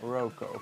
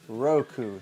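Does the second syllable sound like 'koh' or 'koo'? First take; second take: koh; koo. First: The second syllable ends in an 'oh' vowel. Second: The second syllable ends in an 'oo' vowel. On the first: The speaker calls it wrong. "not Roco" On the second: The speaker calls it right. "So Roku"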